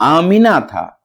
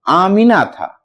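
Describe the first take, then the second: No difference in how they are said.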